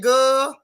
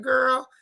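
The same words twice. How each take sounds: First: Put-on country drawl on "girl", louder; country accent. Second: Said in the usual way. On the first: Shown as a demonstration. Streamer catching a slip into country talk, country accent. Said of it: "almost got a little too country". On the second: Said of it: "I almost said girl".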